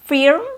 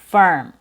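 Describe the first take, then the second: First: The vowel is a short i or a sound. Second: The vowel is a clear 'er' sound. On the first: The speaker calls it wrong. "So it's not firm" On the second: The speaker calls it right. "Next is firm"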